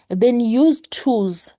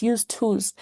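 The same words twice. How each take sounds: First: "use tools" said slowly and louder, each word weighted; emphatic. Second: Said in the usual way. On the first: Real, not acted. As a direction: land "use tools" slow and hard. Stressing the key advice.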